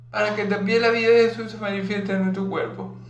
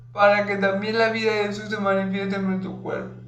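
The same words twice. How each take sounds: Both takes have the same delivery.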